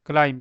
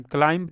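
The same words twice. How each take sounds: First: क्लाइम ending on m, no b sound; silent b. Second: क्लाइम with an audible b after the m; b wrongly sounded. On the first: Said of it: "बी नहीं पढ़ते हैं". (क्लाइम, अंत में ब की आवाज़ नहीं) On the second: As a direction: add a b sound to the end of क्लाइम. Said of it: "क्लाइम नहीं होता". (क्लाइम के अंत में ब बोलकर) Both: Shown as a demonstration.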